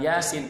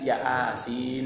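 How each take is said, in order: First: It is said as one word, Yasin. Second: It is split into two words, ya asin. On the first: The speaker calls it right. "bukan Yasin" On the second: The speaker calls it wrong. "dia baca yang transliterasinya itu ya asin"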